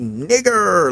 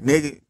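First: The word ends with a stressed 'er' sound. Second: The word ends with a light 'a' sound. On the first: The word is stressed to show how horrible it is. "they only say it with the ER in the movies to try to make emphasis" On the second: The word is used casually while cursing. "they be like"

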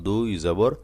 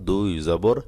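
No difference in how they are said.

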